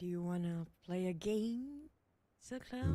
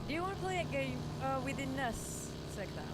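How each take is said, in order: First: It is said in a sinister Saw-movie voice. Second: It is said in his normal speaking voice.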